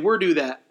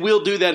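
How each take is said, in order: First: The first word ends with an R-like sound. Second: The first word ends with a clear L sound. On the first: The speaker calls it wrong. "he'll say we're do that" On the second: The speaker calls it right. "Instead of saying we'll do that"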